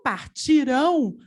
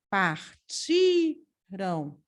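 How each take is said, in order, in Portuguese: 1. A sílaba tônica é a última. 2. A sílaba tônica é a do meio. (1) "a sílaba tônica é o rão" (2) "Partiram é paroxítona. A sílaba tônica é o ti"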